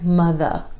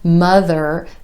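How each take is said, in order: First: The final R sound is dropped away. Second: The final R sound is fully pronounced. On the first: The speaker calls it wrong. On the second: The speaker calls it right.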